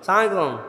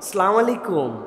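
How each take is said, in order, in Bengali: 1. শুরুর অংশটুকু বাদ পড়ে যায় এবং শব্দগুলো একসাথে জড়িয়ে যায়। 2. সালামের প্রতিটি শব্দাংশ স্পষ্টভাবে উচ্চারিত হচ্ছে। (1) "বিরাট বিরাট লোকজন দেখবেন এরকম করে সালাম দেয়" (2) "সালামের বিশুদ্ধ উচ্চারণটাও শিখে নাও। ... সুন্দর না শুনতে?"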